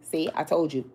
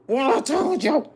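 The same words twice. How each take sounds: First: Said in the usual way. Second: High, slow, stretched gloating cry; excited told you so. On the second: Real, not acted. Reader crowing to viewers that her prediction came true, excited. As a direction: crow it out, vindicated. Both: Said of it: "I'm sorry, let me calm down".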